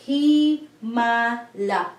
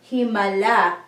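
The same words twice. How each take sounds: First: Himala stretched slowly into hi-ma-la; slow, three syllables. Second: Said in the usual way. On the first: Shown as a demonstration. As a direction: draw out each beat of Himala. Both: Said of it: "it has three syllables here".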